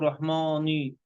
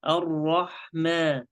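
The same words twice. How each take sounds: First: "رحماني" with a heavy, rounded "mo" sound; wrongly thickened mim. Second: "الرحمن" slowly with a light, unrounded "ma"; thin mim. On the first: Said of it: "لا تقول رحماني". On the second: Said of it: "حروف ميم تبس". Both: Shown as a demonstration.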